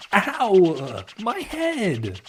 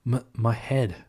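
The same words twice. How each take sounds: First: High, sharp cry of pain. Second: Drowsy, just waking up; groggy waking. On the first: Marine slammed into a tree, crying out in pain. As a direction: yelp as the head hits wood. Hits head on tree base. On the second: Tails waking up from his slumber, groggy. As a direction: mumble it half asleep. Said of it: "while waking up from his slumber". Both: Acted.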